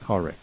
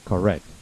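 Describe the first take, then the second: First: The stress is on the first syllable. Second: The stress is on the second syllable. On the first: The speaker calls it wrong. "Don't please do not say correct" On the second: The speaker calls it right. "So the correct pronunciation is correct"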